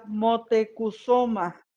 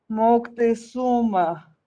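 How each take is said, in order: First: The name is said as Mo-te-cu-zo-ma. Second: The name is said as Moc-te-zu-ma. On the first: This is the form used in the original language. "Para nosotros era Motecuzoma" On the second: This is the form used in Spanish. "según la palabra española"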